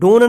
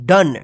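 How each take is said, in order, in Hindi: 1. स्वर की ध्वनि 'oh' जैसी है। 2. स्वर की ध्वनि 'uh' जैसी है। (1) "इसको डोन नहीं पढ़ेंगे" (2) "क्या पढ़ेंगे? डन"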